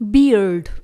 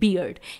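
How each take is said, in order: First: It has an American accent with an r sound. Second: It has a British accent with no r sound. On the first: "US accent जिसमें हम आर को उच्चारित कर रहे हैं" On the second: "यहाँ पर भी आर का प्रोनाउंसिएशन नहीं होगा क्योंकि इसे हम यूके में बोल रहे हैं"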